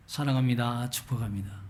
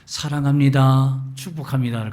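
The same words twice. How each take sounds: First: Soft, warm greeting, fading out; gentle greeting. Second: Warm greeting demo. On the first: Preacher showing the congregation the warm greeting. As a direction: offer it gently and kindly. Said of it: "그걸 가르치기 시작했어요". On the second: Preacher demonstrating a friendly greeting to the congregation. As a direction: say it like you mean it. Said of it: "가르치기 시작했어요". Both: Shown as a demonstration.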